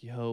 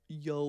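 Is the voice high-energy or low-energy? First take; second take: low-energy; high-energy. First: It is said with low, relaxed energy. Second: It is said with high, lively energy. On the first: The speaker is high and chilled out. "energy low" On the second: The speaker is sober and hyped. "super high energy"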